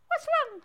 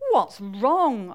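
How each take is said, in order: First: High, squeaky frog question. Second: Lightly voiced wife, natural pitch, louder. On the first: Acted. Frog asks a sad mole, high squeaky voice. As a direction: pipe it up high. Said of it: "said the frog". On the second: Wife asks sad Harry, lightly voiced and louder. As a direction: ask it firmly in a natural register. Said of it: "asked his wife".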